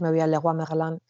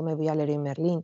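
First: Leroy Merlin said the French way, a guttural r and nasal end. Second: Leroy Merlin read as Spanish, rolled r and every letter said. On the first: A speaker recalling her French-sounding Leroy Merlin. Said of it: "ya no dices". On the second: A speaker now saying store names the Spanish way. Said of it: "acabas diciendo". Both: Shown as a demonstration.

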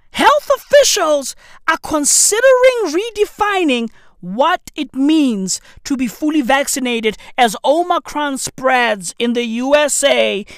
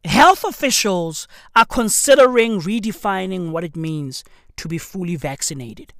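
First: Incredulous reread. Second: Said in the usual way. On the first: Real, not acted. Host rereads the vaccine headline to viewers, incredulous and high. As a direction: reread it like you can't believe it.

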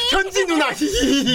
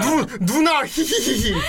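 First: Put-on high, sing-song cutesy girl voice. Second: Lightly cutesy, giggling; a hint of acting cute. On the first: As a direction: act cute and giggle. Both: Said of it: "어디 귀여운 척을 하고 있어".

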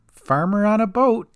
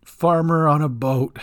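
First: Cat's dry remark. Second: Gran repeats it. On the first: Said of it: "said Cat". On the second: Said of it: "repeated Gran". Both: Acted.

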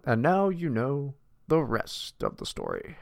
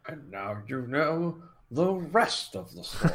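First: Lightly voiced slow radio sign-off; a hint of the old broadcaster, drawn out; slow mock newsman sign-off; Paul Harvey catchphrase. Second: Lightly voiced slow radio sign-off; slow mock newsman sign-off; Paul Harvey catchphrase. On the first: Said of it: "Paul Harvey was badass". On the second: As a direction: echo the old broadcaster, drawn out.

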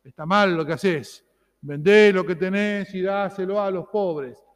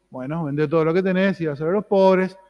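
First: A hint of a severe judge, slower and firm; mild mock stern reproach; stern scolding Jesus. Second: A touch of gentle, loving counsel; lightly voiced tender Jesus; loving advice. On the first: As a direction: wag the finger at the rich young man, lightly. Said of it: "sentencioso, severo". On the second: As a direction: offer it kindly, like a friend. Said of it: "Jesús lo miró con amor".

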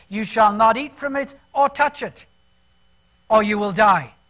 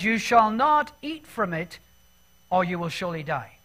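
First: Louder "or touch it", Eve's stretched version of the command; stress on or touch it. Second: Said in the usual way. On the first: Shown as a demonstration. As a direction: lean hard on "or touch it" to show the addition. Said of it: "in other words". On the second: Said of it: "Eve has stretched the truth".

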